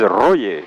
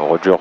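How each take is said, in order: First: It is said the Spanish way, like Royer. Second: It is said the ordinary French way.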